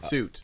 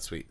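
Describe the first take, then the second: First: The word is said with an 'oo' vowel. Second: The word is said with a 'wee' sound. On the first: The speaker calls it right. "Suit, not Sweet" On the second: The speaker calls it wrong. "not Sweet"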